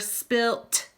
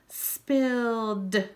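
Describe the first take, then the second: First: The word ends with a t sound. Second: The word ends with a d sound. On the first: The speaker calls it wrong. "or spilt" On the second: The speaker calls it right. "Did you just hear the sound d at the end?"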